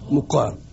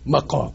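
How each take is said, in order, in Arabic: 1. الحركة الأولى هي صوت u مستدير. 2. الحركة الأولى هي صوت a مفتوح. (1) "للمكان اللي اقيم فيه يبقى ايه؟" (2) "يبقى مكان قيامي من كنت جالس يبقى ده اسمه ايه؟"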